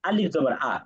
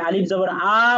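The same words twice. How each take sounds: First: The final vowel is short, not drawn out. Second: The final vowel is drawn out long. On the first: The speaker calls it right. "টান না দিয়ে বলবেন" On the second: The speaker calls it wrong. "তাহলে কিন্তু টান হয়ে গেল, হরকতের উচ্চারণে ভুল।"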